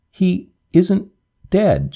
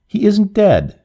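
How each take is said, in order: First: A hint of a sob, higher and plaintive; lightly voiced girl sobbing out a denial; understated tearful protest. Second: Higher and louder, a cry of protest; raised, insistent outcry. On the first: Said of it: "she sobbed". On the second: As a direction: fling the words out higher and louder. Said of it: "she cried again at last". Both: A narrator's reading.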